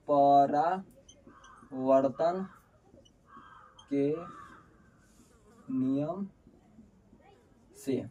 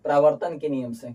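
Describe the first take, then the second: First: Word by word, long pauses between; halting, spaced-out dictation; slow dictation. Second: Said in the usual way. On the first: Real, not acted. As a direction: say it as slowly as you would write it. Dictates rule while writing.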